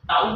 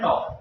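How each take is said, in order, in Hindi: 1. स्वर 'cow' में 'ow' की तरह फिसलता है। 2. स्वर एक सादा 'aw' ध्वनि है। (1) "वैसे टाउ बोलते हैं इसको" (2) "मेरे मुंह से टॉ निकलता है"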